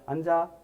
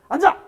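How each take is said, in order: First: It is said in a calm, friendly tone. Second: It is said in a sharp, strong tone.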